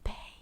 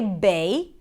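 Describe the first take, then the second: First: The word is whispered without voice. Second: The word is said in a full voice.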